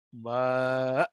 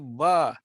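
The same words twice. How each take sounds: First: The letter name ends in a long a. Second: The letter name ends in a short a. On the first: The original form of the letter name. "Dua harakat" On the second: The usual present-day naming. "Kita ba"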